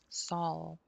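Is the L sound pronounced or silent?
pronounced. The L sound is clearly pronounced. This is the British way of saying it. "Sol is British"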